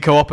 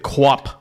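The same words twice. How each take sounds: First: "Co-op" said as "coh-op"; two-syllable Co-op. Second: "Coop" squashed into "kwop"; one-syllable mispronunciation. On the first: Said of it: "Is it Coop?". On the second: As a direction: run "Coop" together as "kwop". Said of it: "Or is it Co-op?". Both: Shown as a demonstration.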